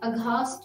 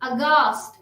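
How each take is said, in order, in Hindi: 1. 'g' के बाद एक हल्का 'h' आता है। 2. 'g' सादा है, इसमें कोई हल्का 'h' नहीं।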